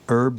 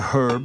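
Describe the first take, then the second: First: The word starts without an h sound. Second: The word starts with an audible h sound. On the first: This is the American way of saying it. "We say herb" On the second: This is the English way of saying it. "they say herb because there's a bloody H in it"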